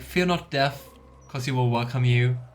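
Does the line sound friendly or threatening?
friendly. It is said in a plain, friendly way. Death is nothing to be afraid of.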